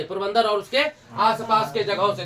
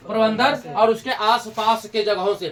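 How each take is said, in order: First: Said in the usual way. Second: Slowed down, every word laid out for notes; slow dictation. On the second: Shown as a demonstration. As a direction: dictate it slowly so they can write. (धीरे-धीरे, लिखवाने के अंदाज़ में) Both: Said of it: "repeated for students to note".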